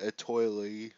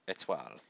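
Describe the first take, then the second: First: The word is said with American pronunciation. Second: The word is said with French pronunciation. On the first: The speaker calls it wrong. "Like an American" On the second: The speaker calls it right. "It's it's French"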